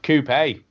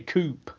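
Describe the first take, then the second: First: The word ends with a pronounced final e. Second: The word ends without a pronounced final e. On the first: The speaker calls it right. "There you go. Coupé" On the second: The speaker calls it wrong. "you lot say coupe"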